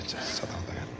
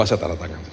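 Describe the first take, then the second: First: Whispered "Saya tanda tangan" under the breath. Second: Said in the usual way. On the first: Shown as a demonstration. Pastor murmuring to himself while signing, whispered.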